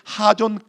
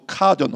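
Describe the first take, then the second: First: The word begins with an h sound. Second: The word begins with a k sound. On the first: "카존 혹은 하존으로 발음이 되는데" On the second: "카존 혹은 하존으로 발음이 되는데"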